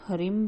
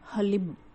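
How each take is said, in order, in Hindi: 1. h के बाद r की आवाज़ आती है। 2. h के बाद l की आवाज़ आती है। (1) "कई लोग हरिम भी इसका उच्चारण करते हैं" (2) "इसका सही उच्चारण है"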